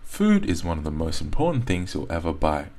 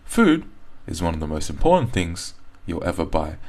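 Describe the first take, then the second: First: The sentence flows without any pause. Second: The sentence is broken up by pauses. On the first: The speaker calls it right. "would most likely just do the whole sentence" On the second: The speaker calls it wrong. "Someone who's fluent in English is never going to say"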